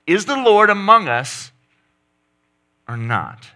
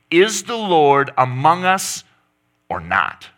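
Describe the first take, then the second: First: High, loud accusing cry; louder, higher repeat. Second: Raised, slow challenge to God; voicing Israel calling out; mock demanding cry. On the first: Acted. Preacher repeating Israel's cry, higher and louder. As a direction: push it up even higher. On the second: Preacher voicing the grumbling Israelites, loud and slow.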